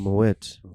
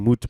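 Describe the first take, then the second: First: The vowel is not an 'oo' sound. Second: The vowel is an 'oo' sound. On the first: "This guy was probably talking about Moet" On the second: "he's saying Moot because O E in Afrikaans is ooh"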